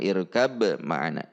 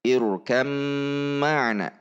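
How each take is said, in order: First: The b is pronounced separately before the m. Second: The b merges into the following m sound. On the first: The speaker calls it wrong. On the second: The speaker calls it right. "ba-nya harus dilebur ke huruf yang ada di depannya"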